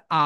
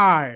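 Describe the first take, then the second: First: British "আ" with no r at the end. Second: American "আর" with the r clearly sounded. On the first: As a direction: give a long open British "আ". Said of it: "ব্রিটিশরা বলে আ". (British ঢঙে র-ছাড়া "আ") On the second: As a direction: close "আর" on an American r. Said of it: "and আমেরিকানরা বলে আর". (American ঢঙে স্পষ্ট র-সহ "আর") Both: Shown as a demonstration.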